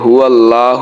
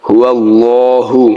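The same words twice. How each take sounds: First: The L in Allah is thin and light. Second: The L in Allah is full and heavy. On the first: The speaker calls it wrong. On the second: The speaker calls it right.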